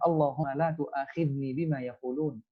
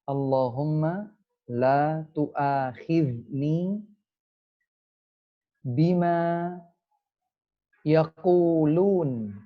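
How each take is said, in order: First: The phrase is said at a normal speed. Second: The phrase is said slowly, word by word.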